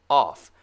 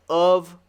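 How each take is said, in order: First: "off" ending in voiceless F; F sound. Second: "of" ending in voiced V; "of" with a buzzing ending; V sound. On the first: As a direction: say "off" loud, breath-only ending. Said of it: "no voice". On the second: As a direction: say "of" as "uhv", loud. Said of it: "Of is actually the V sound". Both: Shown as a demonstration.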